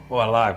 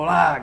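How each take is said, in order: First: It is said quietly, in a low voice. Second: It is said loudly, as a shout.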